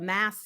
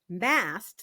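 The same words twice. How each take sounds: First: The word ends without a t sound. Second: The word ends with a t sound. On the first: The speaker calls it wrong. "I was saying this wrong the whole time. I thought it was M A double S as in Sam" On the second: The speaker calls it right. "But it's mast, like a sail mast"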